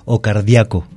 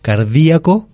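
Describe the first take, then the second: First: "cardíaco" said car-dia-co, the A stressed, I glided. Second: "Cardíaco" said car-dí-a-co, the I stressed, rising. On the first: Teacher contrasting the second form, stress on A. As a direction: put the weight on the a in "cardíaco". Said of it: "haciendo sonar fuerte la A". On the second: Teacher showing listeners the stressed I, clear demo. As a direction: lean hard on the í in "Cardíaco". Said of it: "haciendo sonar fuerte la I". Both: Shown as a demonstration.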